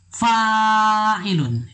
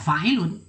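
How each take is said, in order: First: The first vowel is held long. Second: The first vowel is cut short. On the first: The speaker calls it right. "itulah bacaannya yang benar" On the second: The speaker calls it wrong. "Bila Anda baca fa'ilun berarti tidak ada alif"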